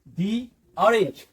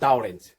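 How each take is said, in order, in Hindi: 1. 'The' को लंबे 'ee' स्वर के साथ बोला जाता है। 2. 'The' को छोटे 'uh' स्वर के साथ बोला जाता है। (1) "दी ऑरेंज बोलेंगे उसको" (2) "नॉट द ऑरेंज"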